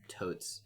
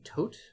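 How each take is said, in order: First: The name is said with a non-French pronunciation. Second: The name is said with a French pronunciation. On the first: This is how his teammates say it, which bugs him. "the other members of the commando unit call him Totes" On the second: This is how the name is properly said. "in a French pronunciation, his name would be Tote"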